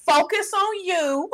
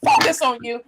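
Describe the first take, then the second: First: FOCUS ON YOU drawn out slowly, a little higher; Julie's catchphrase. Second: Said in the usual way. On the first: Retold or imitated. Friend quoting Julie's advice, drawn-out catchphrase. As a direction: stretch out FOCUS ON YOU like a slogan. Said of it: "do what Julie says all the time". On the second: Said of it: "I'ma do what Julie says".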